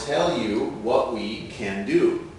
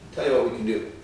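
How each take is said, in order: First: The phrase is said at a slow pace. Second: The phrase is said at a fast pace.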